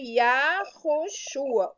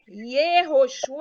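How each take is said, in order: First: The first syllable has an 'a' vowel. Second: The first syllable has an 'e' vowel. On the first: The speaker calls it right. "Na verdade, é Yahoshua" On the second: The speaker calls it wrong. "Yehoshua é errado"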